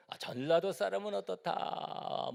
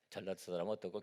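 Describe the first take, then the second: First: High, slow mock gossip line; lightly voiced gossiper; quoting regional gossip. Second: Said in the usual way. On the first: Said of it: "뭐 이런 얘기도 하고". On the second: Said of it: "plain recap of the quote".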